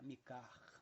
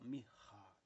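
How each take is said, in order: First: The middle consonant is a plain hard K. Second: The middle consonant is a throaty guttural sound. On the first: The speaker calls it wrong. "Nós aqui usamos o som da letra K" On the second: The speaker calls it right. "som gutural"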